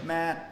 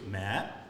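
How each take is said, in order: First: The pitch stays level and flat. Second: The pitch rises upward. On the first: "So that's one" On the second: "I think two is mat"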